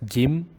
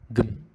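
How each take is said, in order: First: A clear I vowel follows the G. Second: No vowel comes between G and M. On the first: The speaker calls it wrong. "Don't make it as Gim" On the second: The speaker calls it right. "consonants with no vowels connecting them"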